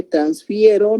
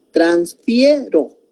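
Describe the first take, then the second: First: Said in the usual way. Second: "Transfiero" slowly, lingering on "fie"; stretched second syllable. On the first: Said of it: "no tiene tilde". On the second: Shown as a demonstration. Teacher pointing out the second syllable of "Transfiero", slowly stretched. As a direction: draw out "Transfiero" to show its middle syllable. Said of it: "En la segunda sílaba".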